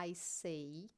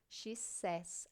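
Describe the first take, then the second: First: I say, with say sounding like day. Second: Says said with a short e, like sez, not say; says pronounced sez. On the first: Teacher shows students the base form, say like day. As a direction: say pronounced like English say, rhyming with day. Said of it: "a pronúncia não vai ser mais say". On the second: Teacher shows students the changed pronunciation, says as sez. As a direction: she says, with says sounding sez. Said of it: "a pronúncia muda". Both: Shown as a demonstration.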